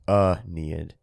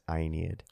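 First: The first vowel is not an 'eye' sound. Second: The first vowel is an 'eye' sound. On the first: This is how most people say it. "everyone apparently just says Aeneid" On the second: This is how classics scholars say it. "the A-E at the beginning makes a diphthong, which makes the I sound, so it's Aeneid"

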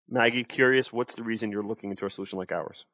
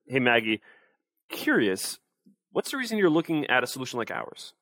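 First: It is said flat and monotone, sounding uncurious. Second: It is said with varied pitch, sounding curious.

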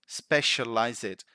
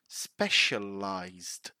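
First: The ending has an extra vowel sound before the 'd'. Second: The ending has no extra vowel sound before the 'd'. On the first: The speaker calls it wrong. "sometimes people say specialize it... we don't pronounce that E" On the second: The speaker calls it right. "it ends like ized... So specialized"

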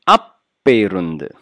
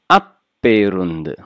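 No difference in how they are said.

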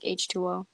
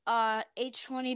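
First: The last character is said as letter O. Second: The last character is said as zero. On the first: The speaker calls it right. "I'm going to say it like H2O" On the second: The speaker calls it wrong. "it's an O, not a zero"

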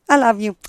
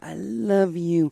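First: It is said quickly and plainly. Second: It is said slowly and tenderly. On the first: It is a casual, passing remark. "if I'm going to say to you" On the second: It is heartfelt and intimate. "I'm going to look in your eyes and I'm going to say"

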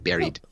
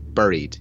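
First: The first syllable sounds like 'berry'. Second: The first syllable sounds like 'burr'. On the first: The speaker calls it wrong. "Not B-A-R" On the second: The speaker calls it right. "It's B-U-R-Bury?"

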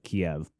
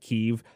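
First: The name is said in the Russian-style pronunciation. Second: The name is said in the Ukrainian-style pronunciation. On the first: This is the form used in the West and Russia. "we in the West and Russia pronounces it as Kiev" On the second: This is the form used locally in Ukraine. "they pronounce it Kiev"

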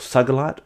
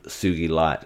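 First: The first part sounds like the word sugar. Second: The first part sounds like soo-gee. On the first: The speaker calls it wrong. "some people, you may have heard this, pronounce it as sugarlite" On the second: The speaker calls it right. "it's called Sugi Light"

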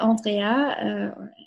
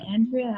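First: The name is said with a French pronunciation. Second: The name is said with a Canadian pronunciation. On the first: "Which is the French version" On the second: "or the Canadian version"

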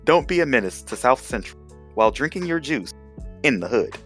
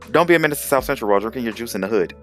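First: The title is said at a slower pace. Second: The title is said at a quicker pace.

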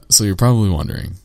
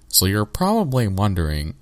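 First: It is said in the speaker's natural voice. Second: It is said in a put-on character voice.

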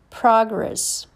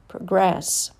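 First: The stress falls on the first syllable. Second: The stress falls on the second syllable. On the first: It is a noun. "First, you hear the noun" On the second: It is a verb. "and then the verb"

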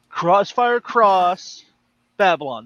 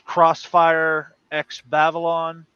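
First: The X is said as the word cross. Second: The X is said as the letter ex. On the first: The speaker calls it right. "There, I said it right" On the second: The speaker calls it wrong. "I know there's another way to say it"

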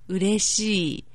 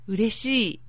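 First: It is said slowly. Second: It is said at normal speed.

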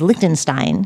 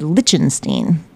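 First: The T sound in the middle is pronounced. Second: The T sound in the middle is dropped.

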